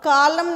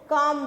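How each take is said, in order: First: The L sound is pronounced. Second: The L sound is left out. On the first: The speaker calls it wrong. "कालम नहीं बोलते हैं" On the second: The speaker calls it right. "काम बोलते हैं, एल is silent"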